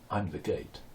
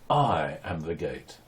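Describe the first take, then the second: First: It is said casually, without emphasis. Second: It is said emphatically, with strong stress.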